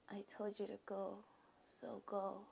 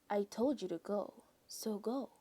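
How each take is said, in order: First: It is said in a quiet, weak voice. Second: It is said in a normal reading voice.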